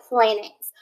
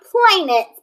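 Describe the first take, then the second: First: "planets" as PLAN-ets, short A; short first vowel in "planets", pitched lower; correct pronunciation. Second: "planets" slowly as PLAY-nets; long A, like "play", in "planets"; wrong pronunciation. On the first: Teacher correcting the misreading, short-A "planets". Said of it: "but planets". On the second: Teacher showing pupils the misreading, slow long-A "planets". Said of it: "Not planets". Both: Shown as a demonstration.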